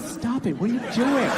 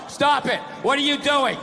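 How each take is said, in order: First: It is said playfully, teasing and flirtatious. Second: It is read flatly, without any playfulness.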